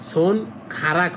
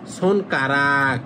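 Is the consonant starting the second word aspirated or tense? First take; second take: aspirated; tense. First: The second word starts with an aspirated kh sound. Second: The second word starts with a tense k sound. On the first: The speaker calls it wrong. "সোন খারাক হবে না" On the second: The speaker calls it right. "হবে কারাক"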